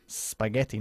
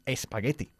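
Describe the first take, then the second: First: The word starts directly with the 's' sound. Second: The word starts with an added 'e' sound. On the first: The speaker calls it right. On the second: The speaker calls it wrong.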